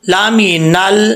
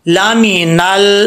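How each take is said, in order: The two takes are said the same way.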